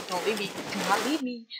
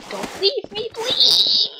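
First: Rushed desperate appeal; urgent pleading. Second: High wail building to a loud please; frantic, high-pitched plea; desperate begging. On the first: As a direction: plead quickly under your breath. Begging, first lower take. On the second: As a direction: plead in a high squeal, louder at the end. Begging, escalated take. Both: Acted.

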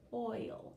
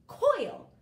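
First: Said in the usual way. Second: Coil said whole, higher and louder; blended word. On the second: Shown as a demonstration. Teacher announcing the sounded-out word Coil, high and loud. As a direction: pop Coil out with a bright lift. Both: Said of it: "Let's sound it out".

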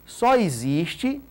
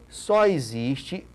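Both takes have the same delivery.

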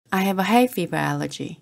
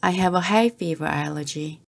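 Both takes have the same delivery.

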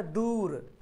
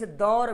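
First: दूर with a drawn-out oo; stretched long oo. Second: दौर with an open au, not oo; unstretched vowel. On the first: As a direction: hold the oo in दूर. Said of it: "यहाँ पे वाव को खींच रहे हैं". (दूर में वाव खींचकर) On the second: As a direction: say दौर as "daur". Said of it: "वाव को यहाँ पे खींच नहीं रहे". (दौर में वाव बिना खींचे) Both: Shown as a demonstration.

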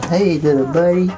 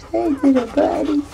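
First: High puppy greeting. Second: Very high squeaky puppy voice. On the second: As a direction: squeak it to the pup. Greeting a puppy. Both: Real, not acted.

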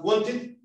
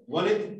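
First: "wanted" with a clear T after the N; T pronounced in WANTED. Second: "wanted" without its T, just the N; T-less WANTED. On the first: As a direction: sound the T in "wanted". ("wanted" con la T bien marcada) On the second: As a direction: say "wanted" as "wanet". ("wanted" sin T, solo con la N) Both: Shown as a demonstration. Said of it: "¿Pero la diferencia?".

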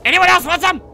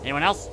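First: High, loud dare; shouted challenge. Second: Said in the usual way. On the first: Pretend. Gamer daring more demons to attack, shouted challenge. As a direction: yell it out as a taunt.

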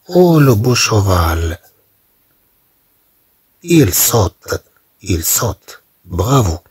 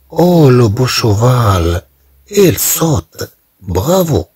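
First: Said in the usual way. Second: Bright, high-pitched cheer for the jumping horse; encouraging cheer. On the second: Shown as a demonstration. Teacher showing students how to cheer, encouraging. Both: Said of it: "تشجيع".

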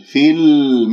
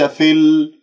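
First: في ال with a clear kasra; correct fi. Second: في ال said as fe; wrong fi. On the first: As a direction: say في with a pure i. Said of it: "واكسرها جيدا". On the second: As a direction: open في into fe. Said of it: "وليس في ال". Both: Shown as a demonstration.

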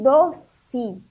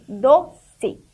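First: Doce drawn out as DO-SI; doce as spoken. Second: Doce as DO-CE, final e kept as e; spell-sound doce, ending on a clear "ce". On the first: Teacher showing the class the sound, doce said "dossi". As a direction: say doce in two slow beats, final e sounding like i. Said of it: "olha o som". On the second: Teacher stressing it is written with C, doce said "do-cê". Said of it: "mas é C". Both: Shown as a demonstration.

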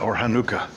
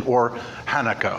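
First: "Hanukkah" as huh-NOO-kuh, middle syllable stressed; Hebrew pronunciation. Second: "Hanukkah" as HAN-uh-kuh, first syllable stressed; everyday pronunciation. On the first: Preacher offering the technical name too, "Hanukkah" as huh-NOO-kuh. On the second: Preacher naming the feast on a chart, "Hanukkah" as HAN-uh-kuh. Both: Shown as a demonstration. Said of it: "in the Hebrew pronunciation of it is".

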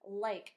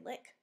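First: "Like" with a long I, as in eye. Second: "lick" with a short I, as in sit. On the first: Teacher reading her story word, long I from silent E. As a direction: sound out "Like" with the vowel saying its name. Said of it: "make the vowel say I". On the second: Teacher showing the word without silent E, short I. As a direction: say "lick" with a quick short vowel. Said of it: "if I had just written L I K". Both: Shown as a demonstration.

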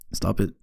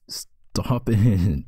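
First: Said in the usual way. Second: Whispered through a laugh, breath only. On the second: Acted. Girlfriend telling her distracting partner to stop, in a laughing whisper. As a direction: giggle it out under your breath.

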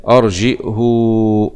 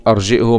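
First: أرجئه with hamza and a drawn-out final "huu"; hu with sila. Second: أرجئه with hamza and short final "hu"; damma, no sila. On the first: Teacher demonstrating the first reading, أرجئه with long "huu". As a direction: say أرجئه slowly, lengthening the damma into a waw. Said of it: "وصلتها". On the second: Teacher warning against the waw, أرجئه with short "hu". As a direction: end أرجئه on damma without adding waw. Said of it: "ما تجيبش واو". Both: Shown as a demonstration.

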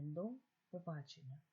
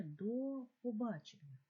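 First: Said in the usual way. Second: «до побачення» said slowly as one joined word; run together. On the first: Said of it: "пропишіть це словосполучення". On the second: Shown as a demonstration. Teacher showing pupils how до побачення joins, slowly. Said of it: "як вимовляється це слово".

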